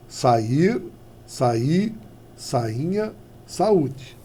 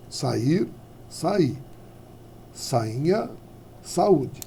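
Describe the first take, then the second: No difference in how they are said.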